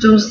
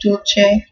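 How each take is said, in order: First: It is said with a Spanish pronunciation. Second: It is said with an Italian pronunciation.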